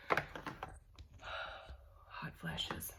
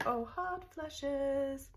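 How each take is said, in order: First: Whispered after a sigh, worn out. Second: Drawn-out, high, slow groan; exasperated groan. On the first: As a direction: breathe it out, exhausted. Sighing about hot flashes again. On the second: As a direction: moan it out, fed up with the heat. Complaining about hot flashes. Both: Real, not acted.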